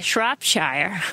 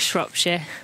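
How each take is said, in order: First: It is said in an American English accent. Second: It is said in a British English accent. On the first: "Americans, you would say Shropshire" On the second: "Doesn't that sound very English"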